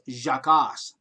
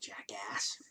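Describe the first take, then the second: First: The first part sounds like French 'Jacques'. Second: The first part sounds like English 'jack'. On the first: The speaker calls it right. "it's pronounced Jacques, like Jacques Cousteau" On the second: The speaker calls it wrong. "not Jackass"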